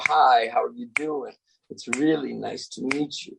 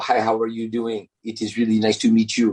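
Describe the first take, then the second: First: It is said with natural English stress rhythm. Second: It is said with French-style even rhythm.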